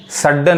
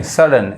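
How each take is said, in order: First: सडन with both d's sounded; सडन wrongly split on a doubled d; wrong double-d pronunciation. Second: सडन with only one d sounded; सडन without doubling the d; single-d pronunciation. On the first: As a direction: say सडन as sad-dan, doubling the d. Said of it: "सडन नहीं". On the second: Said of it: "एक डी पढ़ना है". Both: Shown as a demonstration.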